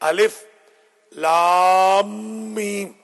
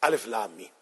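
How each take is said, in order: First: Lam and meem are long and joined. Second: Lam and meem are short and separate. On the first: The speaker calls it right. "लाम चार से छह दफा, फिर मीम चार से छह दफा" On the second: The speaker calls it wrong. "उमूमन इसे गलत पढ़ा जाता है"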